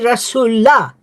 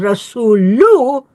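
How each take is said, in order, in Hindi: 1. शब्द 'a' स्वर से खत्म होता है। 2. शब्द 'u' स्वर से खत्म होता है। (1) "it should be Rasulullah" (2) "many members of the Jamaat pronounce the Rasulullah as Rasulu"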